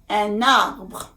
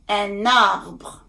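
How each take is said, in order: First: The n sound runs into the following vowel. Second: The n sound runs into the following vowel.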